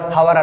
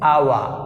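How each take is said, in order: First: The word begins with an audible h sound. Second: The word begins with a vowel, no h sound. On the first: The speaker calls it wrong. "ఈ హెచ్ పలుకుతున్నావు" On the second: The speaker calls it right. "So you pronounce like this"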